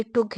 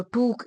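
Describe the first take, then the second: First: 'टुक' with a short u; correct short vowel. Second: 'टूक' with a long oo; wrong long vowel. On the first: Teacher modelling the right word for students, short-vowelled. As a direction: keep the vowel quick in 'टुक'. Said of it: "इसको नहीं बोलना". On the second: Teacher showing students what to avoid, mispronounced long. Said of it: "तो टूक इसको नहीं बोलना". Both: Shown as a demonstration.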